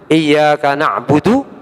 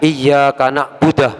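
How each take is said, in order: First: The last word ends with a u vowel. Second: The last word ends with an ah sound. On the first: The speaker calls it right. "Atau seperti na'budu" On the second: The speaker calls it wrong. "dibaca iyyaka na'budah namanya. ... Tak bisa ini"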